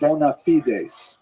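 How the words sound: It is said the Latin way, ending in s. "what we would call in Latin the term"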